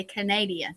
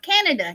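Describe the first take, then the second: First: Canada said as kuh-NAY-dee-uh; countrified mispronunciation. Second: Said in the usual way. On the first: Pretend. Joking to friends about being from up north, Canada mangled as kuh-NAY-dee-uh. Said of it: "I'm gonna say real country". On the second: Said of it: "not Canada".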